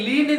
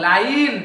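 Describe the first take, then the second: First: ଲିନ୍ with a short "lin" vowel; wrong pronunciation. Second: ଲାଇନ୍ with a long "eye" vowel, silent E; correct pronunciation. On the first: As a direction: say ଲିନ୍ as "lin", no "eye" sound. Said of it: "ନୁହଁ". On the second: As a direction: say ଲାଇନ୍ as "line", one falling beat. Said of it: "ଲିନ୍ ନୁହଁ". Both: Shown as a demonstration.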